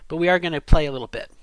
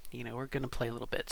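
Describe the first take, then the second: First: Loud, fast, playful announcement; louder announcement. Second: Quiet, fast repeat; soft aside. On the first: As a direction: announce it brightly and quickly. Playful announcement, then repeated softly. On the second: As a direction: say it again under your breath. Same line repeated, much softer. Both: Real, not acted.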